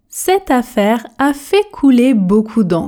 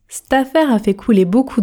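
First: The sentence is spoken slowly with every sound clear. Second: The sentence is spoken quickly with reduced sounds. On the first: "Version tortue" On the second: "pour la version express, je prononce"

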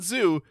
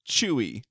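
First: The name begins with a 'z' sound. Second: The name begins with a 'ch' sound. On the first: The speaker calls it wrong. "No, not Zu" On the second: The speaker calls it right. "her name is"

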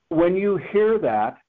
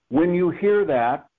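No difference in how they are said.

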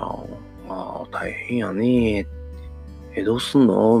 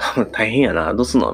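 First: It is said in a heavier, more careful tone. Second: It is said in a light, casual tone.

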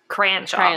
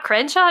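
First: The first vowel sounds like 'cran' in cranberry. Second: The first vowel differs from 'cran' in cranberry. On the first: The speaker calls it right. "Like cranberry sauce" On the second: The speaker calls it wrong. "not Crenshaw?"

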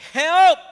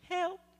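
First: The word is shouted loudly and urgently. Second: The word is said calmly and quietly. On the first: The speaker calls it right. "How do you call for help? ... You say" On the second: The speaker calls it wrong. "You don't say"

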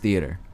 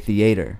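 First: It is said in the other people's local way. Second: It is said in the speaker's own Maryland-style way. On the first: This is how the people around the speaker say it. The speaker calls it right. "people would call me out on it like, yo, it's theater" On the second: This is how the speaker grew up saying it. The speaker calls it wrong. "I would say theater"

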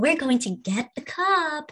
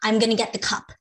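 First: It is said in exaggerated, elongated baby talk. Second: It is said in a plain adult voice.

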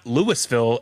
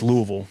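First: The final 'ville' syllable is pronounced clearly. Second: The final 'ville' syllable is reduced, not fully pronounced. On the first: The speaker calls it wrong. "It's not Louisville" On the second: The speaker calls it right. "Ville does not exist"

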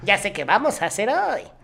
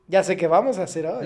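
First: It is said in a put-on character voice. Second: It is said in his own voice.

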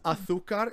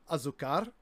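First: The z is said as a lispy th. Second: The z is said as a plain s. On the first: This is the way it is said in Spain. The speaker calls it right. "almost lispy" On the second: This is not the way it is said in Spain. The speaker calls it wrong. "instead of azúcar"

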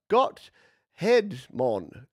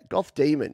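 First: The name is split after 'Got'. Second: The name is split after 'Goth'. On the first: The speaker calls it wrong. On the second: The speaker calls it right.

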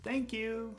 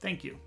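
First: It is said in a warm, friendly tone. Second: It is said in a flat, indifferent tone. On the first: The speaker is being nice and appreciative. "Here's a friendly tone, a friendly thank you" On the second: The speaker does not really care. "Here's an indifferent thank you"

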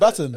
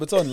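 First: The word is said in a plain English way. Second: The word is said with a French-sounding flair.

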